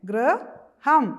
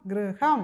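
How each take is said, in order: First: High, louder model of ഗൃഹം; teacher models ഗൃഹം for the children; loud model word. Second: Said in the usual way. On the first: Shown as a demonstration. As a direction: stretch ഗൃഹം out for the class. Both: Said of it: "അപ്പോൾ വായിച്ചേ".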